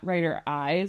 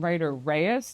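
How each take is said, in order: First: The second word begins with a vowel sound. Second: The second word begins with an R sound. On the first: The speaker calls it wrong. "not Writer Eyes, although that is how you spell it" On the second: The speaker calls it right. "I am Writer Reyes"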